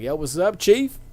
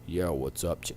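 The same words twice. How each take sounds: First: It is not said in Keith David's voice. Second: It is said imitating Keith David's voice.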